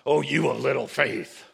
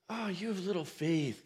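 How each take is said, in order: First: It is said in a harsh, mocking tone. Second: It is said in a warm, caring tone.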